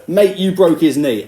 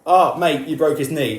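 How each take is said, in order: First: Louder, higher, slow confrontational mock; imitating a coach squaring up to him; slow, pushy accusation; aggressive tone. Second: Mock friendly, easygoing; a light, casual mock mate; mild gentle mate. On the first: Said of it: "that sort of aggressive tone". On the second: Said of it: "he's not just gonna say".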